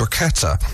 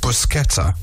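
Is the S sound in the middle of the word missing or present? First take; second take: missing; present. First: The middle S sound is left out. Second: The middle S sound is clearly pronounced. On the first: The speaker calls it wrong. "which you ended up pronouncing bruschetta, missing out the S" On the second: The speaker calls it right. "It's pronounced bruschetta"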